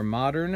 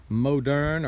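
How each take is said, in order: First: "modern" as MAH-dern, the everyday word; short-o pronunciation. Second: "modern" with a long o, MOH-dern; long-o pronunciation. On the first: Farmer giving the brand "modern" the other way, short-o MAH-dern. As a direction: say "modern" with an open ah, MAH-durn. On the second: Farmer giving the mower brand "modern" one of two ways, long-o MOH-dern. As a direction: say "modern" as MOH-durn, stretched out. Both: Shown as a demonstration. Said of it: "I've heard it pronounced both ways".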